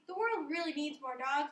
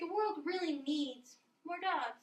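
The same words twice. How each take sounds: First: It is said straight through without a pause. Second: A pause sets off a key word in it. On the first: The speaker calls it wrong. "Instead of saying" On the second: The speaker calls it right. "instead say"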